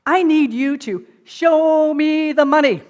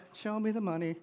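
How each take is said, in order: First: Loud, slow, higher demand; demanding shout. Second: "Show me the money" mumbled softer and without punch; reluctant agent going through the motions; half-hearted. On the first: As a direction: hammer out every word of the demand. And he doesn't say it once. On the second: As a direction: say "Show me the money" limply, unconvinced. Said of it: "No, no, not like that". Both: Retold or imitated.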